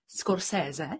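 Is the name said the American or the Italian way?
Italian. The name is said with Italian sounds. "Jedna je italská"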